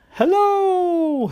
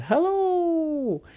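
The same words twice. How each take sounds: First: High, loud squeaky fish. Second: High squeaky little fish. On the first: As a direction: squeak hello like a little fish. Fish character greets. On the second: Same fish greets again. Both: Acted.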